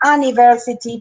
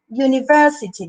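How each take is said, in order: First: The word begins with a plain vowel sound. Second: The word begins with a 'y' sound. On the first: The speaker calls it wrong. "No digo university o university" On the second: The speaker calls it right. "University, digo yo"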